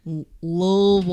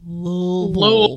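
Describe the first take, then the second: First: Louisville mumbled as if mouth full; mushy Louisville. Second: Louisville drawn out slow, lips rounded; Louisville said slowly. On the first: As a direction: swallow the middle of Louisville. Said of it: "Like you have a mouthful of shit". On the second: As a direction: say Louisville slowly, mushing the middle. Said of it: "I mispronounced it". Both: Shown as a demonstration.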